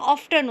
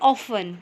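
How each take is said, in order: First: The t sound is pronounced in the middle. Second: The t sound is left out entirely. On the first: The speaker calls it wrong. "अगर टी की आवाज़ होगी तो कैसे होगा? ऑफ्टन होता, लेकिन ऑफ्टन तो रॉन्ग वर्ड हो गया" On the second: The speaker calls it right. "ऑफन में टी की आवाज़ नहीं आती"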